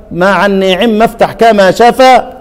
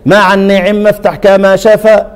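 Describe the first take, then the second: First: مع النعم افتح كما شفا chanted slowly once more, a touch slower; reciting the verse again. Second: مع النعم افتح كما شفا chanted slowly, measured; reciting the verse. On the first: Teacher repeating the verse so students catch it, slow chant. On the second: Teacher quoting Ibn al-Jazari's verse, slow chant. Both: Shown as a demonstration. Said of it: "هو قال إيه هناك".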